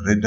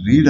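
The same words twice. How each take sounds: First: "రెడ్" with a short e; red pronunciation. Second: "రీడ్" with a long ee; reed pronunciation. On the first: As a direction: say "రెడ్" to rhyme with bed. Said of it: "రెడ్ అని పలకాలి". ("రెడ్" అని హ్రస్వ ఎకారంతో పలకడం) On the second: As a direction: say "రీడ్" to rhyme with need. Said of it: "రీడ్ అని పలకకుండా". ("రీడ్" అని దీర్ఘ ఈకారంతో పలకడం) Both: Shown as a demonstration.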